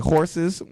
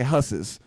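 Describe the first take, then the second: First: The word is said in a standard accent. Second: The word is said in a Boston accent. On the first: "instead of being like say horses" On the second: "she'll she'll say husses"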